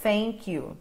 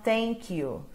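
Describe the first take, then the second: No difference in how they are said.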